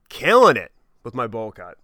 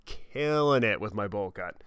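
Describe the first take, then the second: First: Louder, punchy brag; cocky and loud; proud boast. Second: Slowed, relishing every word; slow, smug repeat; slow savoring. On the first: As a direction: show off the bowl cut loudly. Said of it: "Like, killing it with my bowl cut". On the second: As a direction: draw it out with pride. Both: Real, not acted.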